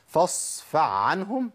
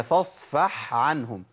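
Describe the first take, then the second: First: فاصفع with the ح swapped for an ع; wrong ain for ha. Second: فاصفح with a crisp breathy ح; correct ha. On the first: Teacher asking whether the mistaken reading is allowed. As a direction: merge فاصفح into فاصفع, slowly. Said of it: "ينفع أقول". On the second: Teacher giving the right reading for contrast. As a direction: make the ح of فاصفح clearly heard. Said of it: "سمعت الفرق". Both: Shown as a demonstration.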